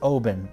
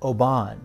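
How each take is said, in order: First: It sounds like 'open' with a B. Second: It does not sound like 'open' with a B. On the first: It is the correct pronunciation. The speaker calls it right. "but it's Oben. It's like open with a B" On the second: It is a pretentious mispronunciation. The speaker calls it wrong. "she kept trying to pronounce it Oban. She was being very hoity-toity"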